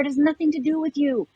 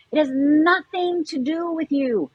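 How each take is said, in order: First: Said in the usual way. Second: Slower, each word landed; slow it right down to drive it home; measured, emphatic repeat; slow, deliberate repeat. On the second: Shown as a demonstration.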